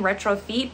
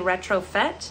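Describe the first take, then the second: First: The last syllable has a long 'ee' vowel. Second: The last syllable has a short vowel. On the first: The speaker calls it wrong. "I was pronouncing this brand incorrectly" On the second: The speaker calls it right. "but it's actually"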